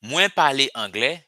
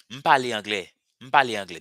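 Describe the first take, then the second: First: Full "Mwen pale angle", mwen said whole; careful full form "Mwen pale angle"; long form mwen. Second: "M pale angle" with the bare M sound; everyday short "M pale angle"; short form M. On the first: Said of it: "That's the long form". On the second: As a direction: clip "Mwen" down to just "M". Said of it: "what you're going to hear". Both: Shown as a demonstration.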